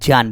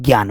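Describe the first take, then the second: First: The word begins with a 'j' sound. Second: The word begins with a 'gy' sound. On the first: The speaker calls it right. "आज के बाद जान बोलेंगे" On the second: The speaker calls it wrong. "आप क्या बोलते हो, ज्ञान बोलते हो। तो शुद्ध बोलो"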